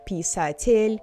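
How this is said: Every vowel gets some stress, American-style. The speaker calls it wrong. "Americans try to stress a little bit of each vowel"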